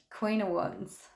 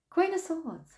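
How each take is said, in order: First: Said in the usual way. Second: Queen of Swords, with "Queen" jumping much higher; self-correction. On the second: Real, not acted. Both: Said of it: "Why do I keep saying Queen of Wands?".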